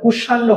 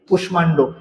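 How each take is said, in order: First: The m sound is silent in the cluster. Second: The m sound is clearly heard in the cluster. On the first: This is the form the usual rule predicts. The speaker calls it wrong. "হওয়ার কথা ছিল" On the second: This is the form actually used. The speaker calls it right. "এটা হয়ে গেছে"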